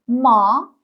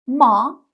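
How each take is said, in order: First: The pitch rises from mid to high. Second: The pitch rises from mid to high.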